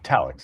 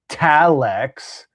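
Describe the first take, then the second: First: It is said plainly, without any extra emphasis. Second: It is said with sarcastic, exaggerated overemphasis. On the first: The speaker calls it right. "It's very easy" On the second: The speaker calls it wrong. "You were like Talix. ... like almost like read like sarcastic overemphasis"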